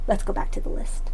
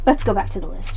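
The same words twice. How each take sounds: First: Whisper. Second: Said in the usual way. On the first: Shown as a demonstration. Repeats the line, then whispers it.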